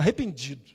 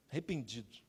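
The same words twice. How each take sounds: First: Said in the usual way. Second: "arrependido" repeated much softer and lower, dying away; fading echo. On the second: Acted. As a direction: let "arrependido" fade almost to nothing. ("arrependido" repetido bem baixinho, sumindo)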